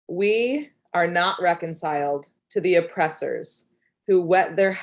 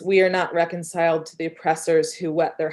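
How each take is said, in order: First: The line is spoken at a slower pace. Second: The line is spoken at a quicker pace.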